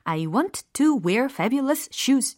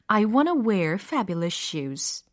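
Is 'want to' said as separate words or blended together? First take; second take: separate; blended. First: Each word is pronounced separately and fully. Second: The words are linked, with 'want to' reduced. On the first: The speaker calls it wrong. "이렇게 들리나요? 아니죠" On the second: The speaker calls it right. "이렇게 들린단 말이죠"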